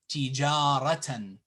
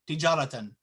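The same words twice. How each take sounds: First: One vowel is clearly lengthened. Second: All the vowels are said short. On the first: The speaker calls it right. "we have to extend and lengthen it" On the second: The speaker calls it wrong. "if it wasn't there, what would we say?"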